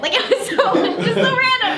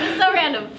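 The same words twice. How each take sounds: First: Laughing through the words. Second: Said in the usual way. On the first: Real, not acted. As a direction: giggle while saying it. Laughing about the random role.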